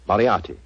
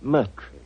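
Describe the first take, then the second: First: The name is said in full, four syllables. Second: The name is said shortened, in two syllables.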